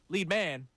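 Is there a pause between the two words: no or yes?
no. Lead and man run together without pause. It names a leading man. The speaker calls it wrong.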